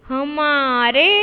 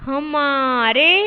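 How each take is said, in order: No difference in how they are said.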